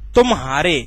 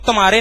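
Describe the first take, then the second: First: A brief break separates tum from haare. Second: The word is said smoothly with no break. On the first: The speaker calls it right. "तुम बोला फिर हारे बोला" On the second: The speaker calls it wrong. "इसको तुम्हारे नहीं बोलते"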